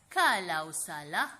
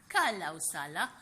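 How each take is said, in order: No difference in how they are said.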